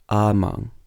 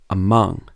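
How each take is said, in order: First: The stress is on the first syllable. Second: The stress is on the second syllable. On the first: The speaker calls it wrong. "you wouldn't say" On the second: The speaker calls it right. "You would say"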